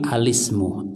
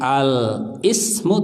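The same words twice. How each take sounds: First: Al runs straight into ismu without a break. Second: Al is cut off from ismu by a break. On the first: The speaker calls it right. "Karena hamzanya hamzah wasal, sehingga bukan al-ismu tapi alismu" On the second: The speaker calls it wrong. "bukan al-ismu"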